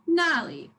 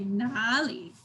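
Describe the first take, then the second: First: The first syllable has a sharp falling tone. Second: The first syllable has a deep dipping tone. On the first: It means over there. "first syllable is down" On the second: It means where. "instead of sharp and down, it's deep"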